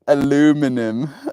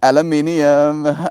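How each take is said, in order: First: It is said the American way, four syllables. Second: It is said the British way, five syllables.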